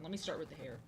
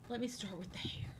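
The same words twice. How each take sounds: First: Said in the usual way. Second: Breathy whispered repeat. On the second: Pretend. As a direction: whisper it close to the mic.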